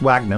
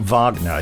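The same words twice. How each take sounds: First: The name is said in the English way. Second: The name is said in the German way. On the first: The name belongs to a non-German person. The speaker calls it right. "I think it's Wagner" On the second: The name belongs to a German composer. The speaker calls it wrong. "not Wagner. He's not a German composer"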